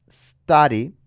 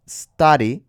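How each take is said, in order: Both takes have the same delivery.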